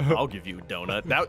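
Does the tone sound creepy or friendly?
creepy. The tone is dark, sly and menacing. It hints at something uncomfortable. "You sound like you're going to do something uncomfortable in the dark"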